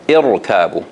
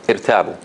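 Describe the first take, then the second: First: The r sound is heavy and full. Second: The r sound is light and thin. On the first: The speaker calls it right. "but it is supposed to be ir, irtabu" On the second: The speaker calls it wrong. "So they would say irtabu, irtabu, like this"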